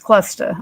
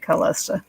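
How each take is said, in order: First: The name is said as Clusta. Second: The name is said as Callista. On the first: The speaker calls it right. "It's Clusta" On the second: The speaker calls it wrong. "I say it wrong. I say it Callista"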